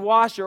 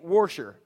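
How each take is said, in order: First: It is said with a standard pronunciation. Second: It is said with a regional, rural accent.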